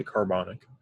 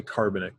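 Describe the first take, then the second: First: Carbonic stressed on the second syllable, car-BON-ic; right stress. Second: Carbonic stressed on the first syllable, CAR-bo-nic; wrong stress. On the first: Teacher showing students the correct stress on carbonic. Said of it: "we don't say carbonic". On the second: Teacher showing students the wrong stress on carbonic. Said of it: "we say carbonic". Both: Shown as a demonstration.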